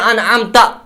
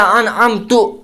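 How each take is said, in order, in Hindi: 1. शब्द 'a' स्वर पर खत्म होता है। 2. शब्द 'u' स्वर पर खत्म होता है। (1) "असल में है" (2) "दूसरी गलती"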